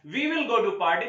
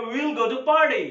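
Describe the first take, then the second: First: Said in the usual way. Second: "we will" merged into one syllable, we'll; stylish contraction. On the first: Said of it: "अगर हमें बोलना है". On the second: Shown as a demonstration. Teacher shows how we can say it, "we will" contracted. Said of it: "तो हम बोल सकते हैं".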